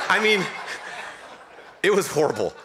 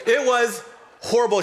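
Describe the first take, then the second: First: Said through real laughter; laughing. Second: Higher and louder, it was horrible; emphatic. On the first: Pastor recalling wife's collapse to the congregation, laughing. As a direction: laugh while calling it horrible. Laughing at his own story. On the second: Pastor stressing how bad the hike was, higher and louder. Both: Real, not acted.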